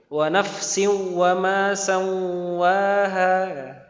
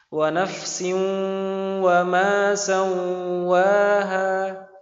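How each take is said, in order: First: Only the second spot is nasalized. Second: Both spots are nasalized. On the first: "Jangan kebalik malah" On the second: "Atau dua-duanya berdengung malah"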